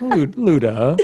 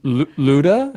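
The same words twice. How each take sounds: First: "Lu-, Luda." stammered and laughed through; timid Luda. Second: "Luda?" with a hesitant stutter and rising tune; unsure Luda. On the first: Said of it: "he was like". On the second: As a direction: stammer "Lu-, Luda?" as a question. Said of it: "He's like". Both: Retold or imitated.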